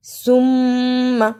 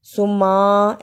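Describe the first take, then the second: First: सुम्मा with long hummed mm, short a; correct reading. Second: सुम्मा with short m and long ā; wrong reading. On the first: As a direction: hold the m of सुम्मा, keep its end short. (सुम्मा, मीम पर लंबा गुन्ना) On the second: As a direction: skip the hum and stretch the end of सुम्मा. (सुम्मा, बिना गुन्ना, आ खींचकर) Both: Shown as a demonstration. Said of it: "ऐसे नहीं पढ़ना".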